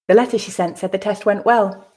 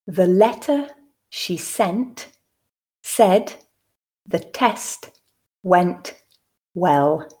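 First: The sentence is said at natural speed. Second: The sentence is said slowly. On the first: "two more times at a more natural pace" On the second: "the first time slowly for you to grasp the meaning"

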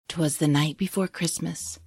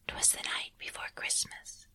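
First: It is said in a normal voice. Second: It is said in a whisper.

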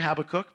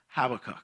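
First: The word has an 'oo' vowel sound. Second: The word has no 'oo' vowel sound. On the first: "I feel like it should be an O-O there sound there" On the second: "it is pronounced Habakkuk for me"

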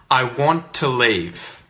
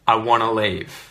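First: Both words are said fully and separately. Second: The words blend into one reduced word. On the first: "when you hear the first sentence" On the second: "say the second one with the contraction"

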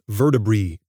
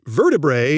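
First: The final vowel is a long E sound. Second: The final vowel is not a long E sound. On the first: It follows the scientific rule for words ending in A-E. "you pronounce them as a long E" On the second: It is the everyday way most people say it. "vertebrae is the way normal human beings say it"

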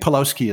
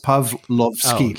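First: The w in the name sounds like w. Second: The w in the name sounds like v. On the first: This is how many Canadians say the name. "I think Pawlowski is how a lot of Canadians pronounce it" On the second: This is how the name is said in Polish. "in Polish, I'm told the W is a V, so it's Pawlowski"

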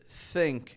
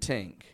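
First: The word begins with a soft 'th' sound. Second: The word begins with a hard 't' sound. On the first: The speaker calls it right. "a nice, clear TH sound" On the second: The speaker calls it wrong. "Tink isn't a word"

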